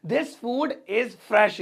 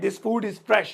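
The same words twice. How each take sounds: First: Drawn out word by word; slow it right down for learners to repeat; very slow model sentence. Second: Said in the usual way. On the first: Shown as a demonstration. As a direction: dictation pace. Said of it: "slow repeated model sentence". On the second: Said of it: "first take at normal pace".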